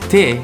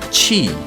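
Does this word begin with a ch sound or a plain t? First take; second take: plain t; ch sound. First: It begins with a plain t sound. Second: It begins with a ch sound. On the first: The speaker calls it wrong. "Many people might teach you as te" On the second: The speaker calls it right. "but actually it's chi"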